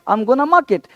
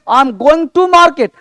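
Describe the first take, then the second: First: Going to is reduced to gonna. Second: Going to is said as two full words. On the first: The speaker calls it right. "इस तरह से बोलना है" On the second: The speaker calls it wrong. "ओल्ड method छोड़ना है"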